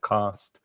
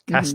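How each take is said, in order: First: It is said with a southern English accent. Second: It is said with a northern English accent.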